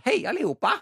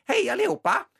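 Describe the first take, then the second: First: High, bright-voiced cheery greeting with a Swedish lilt; little Swedish girl. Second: Put-on much higher, louder squeaky girl greeting; little girl greeting. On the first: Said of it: "bittelita svensk jente". (ei bittelita svensk jente som hilser, lyst og muntert) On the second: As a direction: overdo the tiny teen girl's hello. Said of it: "bittelita, sikkert seksten år". (mye lysere og kraftigere jentehilsen)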